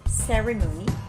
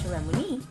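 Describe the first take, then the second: First: The stress is on the first syllable. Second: The stress is on the fourth syllable. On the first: The speaker calls it right. "the stress is on the first syllable" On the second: The speaker calls it wrong. "not also on the fourth. That it will sound ceremony"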